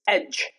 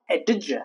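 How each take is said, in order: First: The ending is a plain J sound. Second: The ending is not a plain J sound. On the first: The speaker calls it right. "It's edge" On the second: The speaker calls it wrong. "not edge. No, that's wrong"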